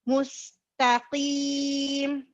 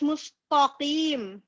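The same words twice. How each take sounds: First: The t sound is light and thin. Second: The t sound is heavy and dark. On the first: The speaker calls it right. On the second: The speaker calls it wrong. "nagiging heavy ang ta sa mustaqim. ... This is wrong"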